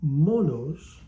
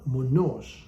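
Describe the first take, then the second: First: Monos with a loud first syllable; stress on first O. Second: Monos with the final syllable stressed; stress on second O. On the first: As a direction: say monos as MO-nos. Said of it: "placed on the first O". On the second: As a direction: say monos as mo-NOS. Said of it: "on the second O". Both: Shown as a demonstration.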